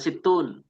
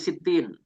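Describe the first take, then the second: First: The word ends with an 'un' sound. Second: The word ends with an 'in' sound. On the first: The speaker calls it wrong. "tidak dibaca situn" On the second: The speaker calls it right. "tetapi sitin"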